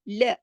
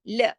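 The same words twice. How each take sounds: No difference in how they are said.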